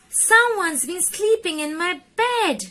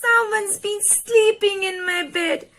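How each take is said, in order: First: It is said in a loud, deep roar. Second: It is said in a high, squeaky voice.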